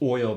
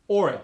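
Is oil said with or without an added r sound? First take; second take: without r; with r. First: The word is said without an r sound. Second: The word is said with an added r sound.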